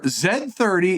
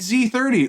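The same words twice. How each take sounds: First: The letter Z is said the British way. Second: The letter Z is said the American way.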